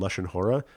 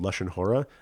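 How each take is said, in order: First: It is said in the Ashkenazi Hebrew pronunciation. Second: The same.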